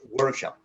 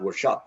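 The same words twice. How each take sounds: First: The stress is on the first syllable. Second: The stress is on the second syllable. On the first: The speaker calls it right. "it's workshop" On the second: The speaker calls it wrong. "not workshop"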